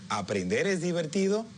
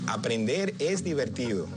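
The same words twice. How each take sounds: First: It is said with a rising question tune. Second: It is said with a falling statement tune. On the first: It is a question. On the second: It is a statement.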